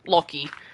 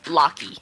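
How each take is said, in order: First: The name is said with an Australian accent. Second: The name is said with an American accent.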